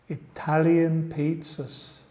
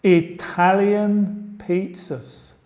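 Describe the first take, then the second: First: Said in the usual way. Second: Italian pizzas said slowly and higher, stress on Italian; teacher drilling Italian pizzas; slow model phrase. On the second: Shown as a demonstration. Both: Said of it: "Vamos a seguir con la próxima".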